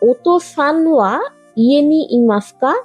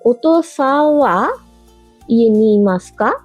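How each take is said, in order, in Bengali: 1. "san" এর n সম্পূর্ণ উচ্চারিত হয়। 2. n বাদ পড়ে, পরের স্বরবর্ণে গড়িয়ে যায়। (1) "না বলে" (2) "জিভ দাঁতে স্পর্শ না করে সোজা পরের অক্ষরে চলে যাওয়া হয়"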